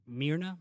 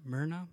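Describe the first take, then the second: First: Myrna with an "ee" first vowel, MEER-na; MEER-na pronunciation. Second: Myrna with an "er" first vowel, MUR-na; MUR-na pronunciation. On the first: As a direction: try Myrna as MEER-na, questioning rise. Trying out an unfamiliar name's pronunciation. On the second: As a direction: try Myrna as MUR-na, rhyming with Verna. Second guess at the same name. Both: Shown as a demonstration.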